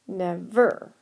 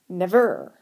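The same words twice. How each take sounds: First: The stress is on the second syllable. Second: The stress is on the second syllable.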